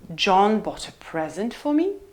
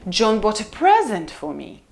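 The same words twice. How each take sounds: First: The pitch rises from low to mid on present. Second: The pitch rises then falls on present. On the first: "Low rise" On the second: "So it goes up and down"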